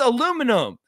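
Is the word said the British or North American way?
North American. It is said with the North American pronunciation. The speaker calls it right. "It's aluminum"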